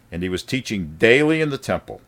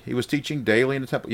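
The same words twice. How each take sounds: First: Said in the usual way. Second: Higher, fast, incredulous question; mock surprise. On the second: Preacher feigns disbelief at the verse, fast and incredulous. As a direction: act astonished that he was teaching daily.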